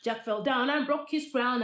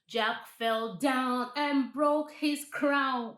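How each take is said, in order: First: It is said fast. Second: It is said at a normal pace.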